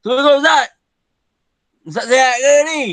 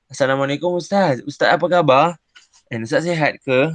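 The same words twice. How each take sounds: First: Much higher and louder, brash and disrespectful; loud cheeky call to the teacher; rude tone. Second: Polite greeting. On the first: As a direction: greet the teacher rudely and carelessly. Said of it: "Kalau bahasa yang kasar". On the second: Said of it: "bahasa yang baik, lembut dan sopan". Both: Shown as a demonstration.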